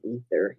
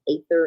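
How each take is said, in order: First: The word begins with an 'ee' sound. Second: The word begins with an 'ay' sound.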